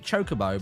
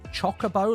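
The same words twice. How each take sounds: First: The first syllable does not sound like 'chocolate'. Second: The first syllable sounds like 'chocolate'. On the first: "I pronounce it chocobo" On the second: "some people pronounce it like cho chocobo, like chocolate"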